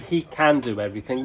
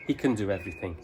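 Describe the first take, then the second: First: 'Can' is said with a full vowel. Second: 'Can' is reduced to a weak schwa form. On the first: The speaker calls it wrong. "We don't say" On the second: The speaker calls it right. "we say can"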